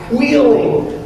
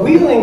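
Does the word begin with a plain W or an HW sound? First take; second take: HW; plain W. First: It begins with a breathy HW sound. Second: It begins with a plain W sound. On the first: The speaker calls it right. "It starts with an H W" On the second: The speaker calls it wrong. "isn't actually pronounced that way"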